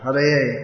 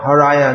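First: The word ends in an 'e' sound. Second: The word ends in an 'a' sound. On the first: The speaker calls it right. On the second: The speaker calls it wrong. "Not Haraya Nama Krishna"

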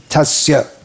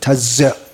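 First: The middle consonant is a firm, solid s. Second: The middle consonant sounds buzzing, like a z. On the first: The speaker calls it right. "it should be Tasya. Firm, solid, sa" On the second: The speaker calls it wrong. "It's more like a Z"

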